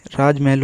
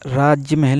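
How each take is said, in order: First: राजमहल with j running straight into m; राजमहल with no "ya" inside; correct pronunciation. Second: राजमहल said slowly as "raajya-mahal"; राजमहल as राज्यमहल; wrong pronunciation. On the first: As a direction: say राजमहल as "raaj-mahal". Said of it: "राजमहल होगा". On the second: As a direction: put a "ya" after राज in राजमहल. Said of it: "राजमहल नहीं". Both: Shown as a demonstration.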